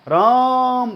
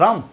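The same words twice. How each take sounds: First: The vowel is stretched long, like a far call. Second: The vowel is short, like a normal word. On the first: The speaker calls it right. "कहीं दूर हो" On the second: The speaker calls it wrong. "ऐसे नहीं बोलेंगे हम"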